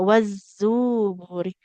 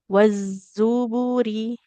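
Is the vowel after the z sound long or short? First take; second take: long; short. First: The vowel after the z is drawn out long. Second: The vowel after the z is kept short. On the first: The speaker calls it wrong. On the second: The speaker calls it right. "Zainya tidak panjang"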